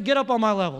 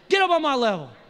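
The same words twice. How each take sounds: First: It is said plainly, without extra energy. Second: It is said with lively, showy energy.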